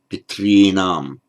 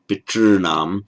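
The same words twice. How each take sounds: First: The r is followed by a distinct i vowel. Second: The r itself is the vowel of the syllable. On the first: "Some people make it a r plus a vowel, distinct vowel, like ri" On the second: "a purely vocalic r"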